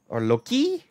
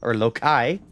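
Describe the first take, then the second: First: Loki said as LOH-kee, high; Loki, long e. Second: Loki said as LOH-kye; Loki, long i. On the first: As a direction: Loki rhymes with pokey, rising. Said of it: "Depends on how many drinks I've had". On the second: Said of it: "I will go with Loki". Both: Shown as a demonstration.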